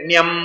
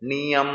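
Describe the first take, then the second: First: The ending is run together as one syllable. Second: The ending is split into two syllables. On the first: The two forms are treated as a single one. The speaker calls it wrong. "ಒಟ್ಟಿಗೆ ಒಂದೇ ಇಟ್ಕೊಳ್ತೀವಿ ಅಂದ್ರೆ ನ್ಯಂ ಅಂತ ಹೇಳಿ" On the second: The mantra gets its full twenty-four syllables. The speaker calls it right. "ನಿಯಂ ಅನ್ಬೇಕು"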